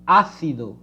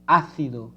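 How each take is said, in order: First: The c sounds like th in thin. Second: The same.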